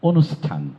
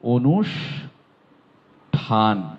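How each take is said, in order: First: The middle consonant is an English-style s. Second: The middle consonant is a Bengali sibilant. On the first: The speaker calls it wrong. "এই জায়গায় এস ব্যবহার করে বলে থাকেন অনুষ্ঠান, এটি ভুল" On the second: The speaker calls it right. "এটির উচ্চারণ অনুষ্ঠান"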